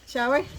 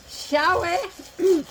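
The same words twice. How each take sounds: First: Said in the usual way. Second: Higher, louder teasing "Shall we?" with a put-on lilt; a higher, louder, playful "Shall we?" lilt; playful sing-song. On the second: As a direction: sing "Shall we?" out in a mock-fancy invitation. Repeated playful invitation.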